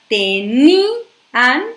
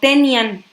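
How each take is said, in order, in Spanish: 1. La i y la a forman dos sílabas separadas. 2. La i y la a se unen en una sola sílaba. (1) "para que diga tenían, es decir, hacer esta separación silábica" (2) "si yo no rompo ese diptongo que están haciendo la I y la A, ahí va a decir"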